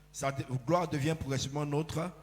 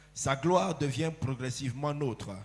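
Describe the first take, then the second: Both takes have the same delivery.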